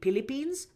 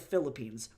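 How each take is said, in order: First: The word begins with a P sound. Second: The word begins with an F sound. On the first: "F's become P's" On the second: "not the Philippines"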